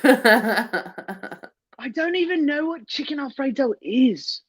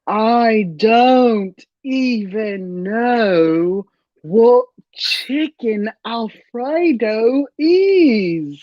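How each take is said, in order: First: The sentence is spoken at a fast pace. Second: The sentence is spoken at a slow pace. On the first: The speaker calls it wrong. "you're going too fast" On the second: The speaker calls it right. "You nail it when you go slower"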